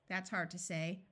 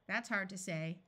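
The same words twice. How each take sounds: The two takes are said the same way.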